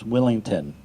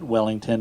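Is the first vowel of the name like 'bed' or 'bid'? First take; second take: bid; bed. First: The first vowel sounds like the vowel in 'bid'. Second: The first vowel sounds like the vowel in 'bed'. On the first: The speaker calls it right. "It's Willington" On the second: The speaker calls it wrong. "It's not Wellington"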